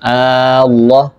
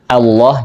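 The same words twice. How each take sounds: First: The first vowel is long and drawn out. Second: The second vowel is long, the first short. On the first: The speaker calls it wrong. "jangan Allah, hamzahnya pendek" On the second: The speaker calls it right. "dipanjangkan Allah"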